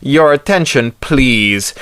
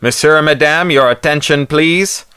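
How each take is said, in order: First: Flat, firm loudspeaker order; PA order repeated to the club; thundering PA. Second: Booming PA voice. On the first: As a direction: boom it out over the crowd. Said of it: "The P A thundered again". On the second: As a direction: boom it through a loudspeaker. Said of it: "amplifying the voice of the Pierre inside to teeth-shaking booms". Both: A narrator's reading.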